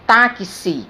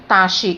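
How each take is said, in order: First: The x is sounded as ks. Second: The x is not sounded as ks. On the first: The speaker calls it right. "eu pronuncio táxi" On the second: The speaker calls it wrong. "eu não pronuncio taxi"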